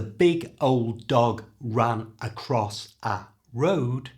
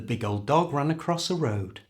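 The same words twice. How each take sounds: First: The words are said separately, one by one. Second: The words run together with consonants linked across.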